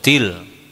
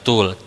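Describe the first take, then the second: First: The syllable has an i vowel. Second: The syllable has a u vowel. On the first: The speaker calls it right. "Til katanya ya" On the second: The speaker calls it wrong. "bukan tul"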